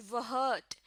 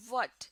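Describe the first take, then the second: First: وہٹ with a breathy h, "whut", slowed; wrong h sound. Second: What said "wot", no h breath; right pronunciation what, h silent; correct what. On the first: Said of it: "نہ کہ". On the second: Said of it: "صحیح pronunciation ہے". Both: Shown as a demonstration.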